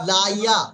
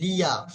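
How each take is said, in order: First: The first syllable has an 'a' vowel. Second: The first syllable has an 'i' vowel. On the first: The speaker calls it wrong. "আর পড়ার সময় বলছি লা।" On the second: The speaker calls it right. "লাম জের লি ইয়া জবর ইয়া"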